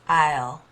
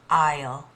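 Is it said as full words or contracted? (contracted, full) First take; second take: contracted; contracted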